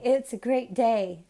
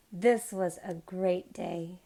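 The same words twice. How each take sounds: First: Said in the usual way. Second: Slow, with "This" pressed and held; stress on THIS. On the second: Shown as a demonstration. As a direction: correct yourself by leaning on "This". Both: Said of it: "I keep feeling like I say".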